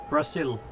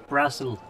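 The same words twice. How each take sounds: The two takes are said the same way.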